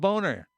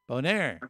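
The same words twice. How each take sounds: First: It is said in a plain English accent. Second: It is said in a French accent.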